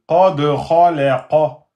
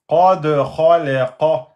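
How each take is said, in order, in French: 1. Le d est relâché avec un écho audible. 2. Le d est relâché avec un écho audible.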